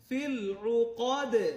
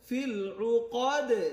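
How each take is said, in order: Both takes have the same delivery.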